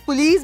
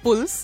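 First: All of the vowels are fully pronounced. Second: A vowel is swallowed and dropped.

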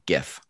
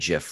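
First: The word begins with a hard G sound. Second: The word begins with a J sound. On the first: The speaker calls it right. "GIF with a hard G" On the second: The speaker calls it wrong. "Not a GIF like the peanut butter"

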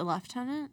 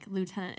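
First: Lieutenant is said with the British pronunciation. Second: Lieutenant is said with the American pronunciation. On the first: "So Britain is a lieutenant?" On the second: "lieutenant is, like, American"

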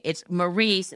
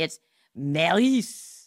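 First: The name is said with an English accent. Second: The name is said with a French accent.

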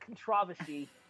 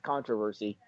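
First: The word is said with a British pronunciation. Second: The word is said with a non-British pronunciation. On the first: "I just like saying the British pronunciation of that" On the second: "The English pronunciation is controversy"

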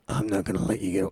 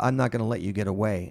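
First: It is said in a low, guttural voice. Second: It is said in a normal voice.

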